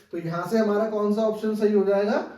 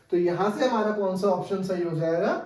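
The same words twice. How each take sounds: No difference in how they are said.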